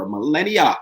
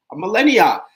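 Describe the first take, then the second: First: Said in the usual way. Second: MILLENNIA stressed, pitched high and louder; "millennia" in high, loud amazed emphasis, then dropping; emphatic repeat. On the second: Real, not acted. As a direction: punch "millennia" with a high peak that falls away.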